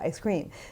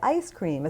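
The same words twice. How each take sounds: First: The stress falls on the word cream. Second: The stress falls on the word ice. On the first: The speaker calls it wrong. "as opposed to" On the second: The speaker calls it right. "the rule for compound nouns"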